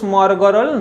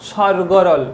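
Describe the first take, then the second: First: The word starts with s followed by m. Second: The word starts with s, no m sound. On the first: The speaker calls it wrong. "এর উচ্চারণ কিন্তু স্মরগরল নয়" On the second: The speaker calls it right. "এর উচ্চারণ হচ্ছে স্বরগরল"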